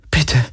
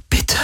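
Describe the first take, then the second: First: Pleading „Bitte“ voiced and pitched up; desperate plea. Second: Desperate whisper. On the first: Kirai begging the ship to open, voiced desperate plea. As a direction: beg the wristband to work. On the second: Kirai whispering to the wristband in despair. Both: A narrator's reading. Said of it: "flüsterte sie verzweifelt".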